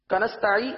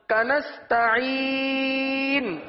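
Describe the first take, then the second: First: It is said quickly with the final n dropped. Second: It is said with a clear final n sound. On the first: The speaker calls it wrong. "جلدی جلدی پڑھنا ہوتا ہے نا" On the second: The speaker calls it right. "آخر میں نون کی آواز آئے گی, نون کے مخرج پہ زبان لگے"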